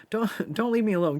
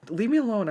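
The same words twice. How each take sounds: First: Higher, pleading "don't, don't leave me alone." that takes back the brush-off; playful plea. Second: Higher, playful "Leave me alone." as a mock brush-off; mock shooing off. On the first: Pretend. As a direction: beg them playfully to stay. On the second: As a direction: push them away in jest, higher up.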